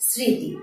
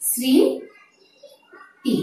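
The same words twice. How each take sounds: First: Said in the usual way. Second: স্মৃতি stretched very slowly as শৃঁতি; স্মৃতি ধীরে ভেঙে উচ্চারণ; slowly broken down. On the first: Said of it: "কাজে উচ্চারণটি হয়েছে". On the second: Shown as a demonstration. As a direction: say স্মৃতি as nasal শৃঁ-তি, slowly. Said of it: "এসির উচ্চারণ এসেছে".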